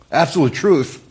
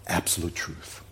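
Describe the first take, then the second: First: Higher, incredulous objection; scoffing disbelief. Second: Quiet, low and weighty; hushed solemnity. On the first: Acted. Unbeliever objecting to the claim, scoffing. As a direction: toss it back like a doubter. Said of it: "if you're not a believer". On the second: Real, not acted. Preacher stating what Jesus spoke, hushed and solemn. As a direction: let it drop to a grave hush. Solemn statement before the sceptic's echo.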